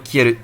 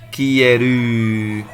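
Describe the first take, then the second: First: The word is said quickly without drawn-out sounds. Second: The word is said slowly with drawn-out sounds. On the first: The speaker calls it right. "They just go Kieru" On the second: The speaker calls it wrong. "So they don't say like Kieru"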